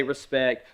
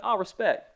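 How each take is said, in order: First: Said in the usual way. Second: Lightly voiced little girl, a touch brighter; hint of a pleased seven-year-old saying "Oh, respect."; daughter's catchphrase. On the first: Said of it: "You can say". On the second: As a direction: daughter approving, a hint of a child's voice. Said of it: "she'll be like".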